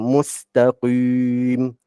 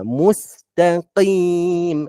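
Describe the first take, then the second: First: The q is over-thickened with rounded, pursed lips. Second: The q is moderately thick, without lip rounding. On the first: The speaker calls it wrong. "tak perlulah kita baca mustaqim, ah, dia salah" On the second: The speaker calls it right. "qim, ha, gitu je"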